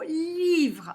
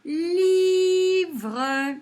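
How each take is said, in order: First: Said in the usual way. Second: Livre stretched into high, loud Liii-vreuh; chanted two-beat Li-vre; syllable by syllable. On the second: Shown as a demonstration. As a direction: hold the i in Livre, then sound out vre. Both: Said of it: "deux syllabes".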